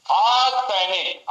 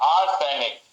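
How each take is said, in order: First: आज सैनिक said very slow, higher and louder to sound like arsenic; slow emphatic. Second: Said in the usual way. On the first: Shown as a demonstration. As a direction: drag out आज सैनिक as one word. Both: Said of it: "सैनिक में भर्ती हो".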